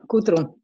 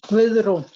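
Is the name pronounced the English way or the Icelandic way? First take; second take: English; Icelandic. First: The name is said with English sounds. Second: The name is said with Icelandic sounds. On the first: "my name is Gudrun" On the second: "In Icelandic, you pronounce it Guðrún"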